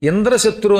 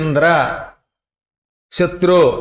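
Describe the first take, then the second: First: The two words run together without a pause. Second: There is a pause after the first word. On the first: The speaker calls it right. "కలపకుండా" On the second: The speaker calls it wrong. "Indra అని ఆపి"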